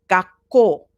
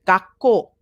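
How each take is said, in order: The two takes are said the same way.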